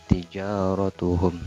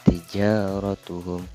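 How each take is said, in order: No difference in how they are said.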